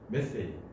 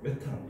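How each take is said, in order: First: It is said the American way, 'meth-ane'. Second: It is said the German way, 'me-tan'. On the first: "미국식은 메세인" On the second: "독일식은 메탄 이렇게 발음할 거예요"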